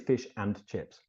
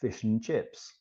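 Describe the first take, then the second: First: The 'and' is said in its full form. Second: The 'and' is reduced to a weak 'un'. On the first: The speaker calls it wrong. "We don't say" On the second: The speaker calls it right. "we've got un as well, like"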